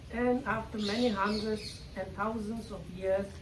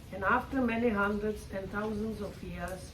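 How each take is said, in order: No difference in how they are said.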